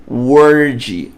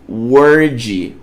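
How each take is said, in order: No difference in how they are said.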